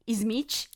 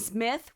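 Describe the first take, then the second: First: It is said with a Brazilian Portuguese accent. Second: It is said with a plain English accent.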